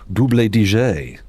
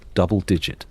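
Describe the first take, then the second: First: It is said in a posh, affected way. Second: It is said in an ordinary, plain way.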